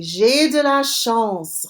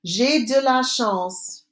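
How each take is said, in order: First: J'ai de la chance said slowly and clearly; slow model phrase. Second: J'ai de la chance said slowly again; slow repeat. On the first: Teacher slowly modelling a phrase for students. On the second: Teacher repeating after Répétez, slow and clear. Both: Shown as a demonstration. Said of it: "Répétez".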